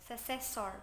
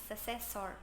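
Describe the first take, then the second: No difference in how they are said.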